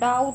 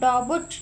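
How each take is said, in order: First: The word has no b before the t. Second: The word has an audible b before the t. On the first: The speaker calls it right. "डाउट में बी silent है" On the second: The speaker calls it wrong. "हम डाउट नहीं पढ़ते इसको"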